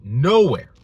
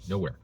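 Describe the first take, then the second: First: Loud emphatic "Nowhere". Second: Said in the usual way. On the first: Real, not acted. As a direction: hit "Nowhere" hard and louder.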